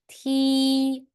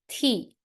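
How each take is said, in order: First: The pitch stays high and level. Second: The pitch falls sharply from high. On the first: "the first one, first tone" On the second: "And how about the last one?"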